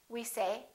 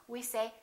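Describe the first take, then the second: Both takes have the same delivery.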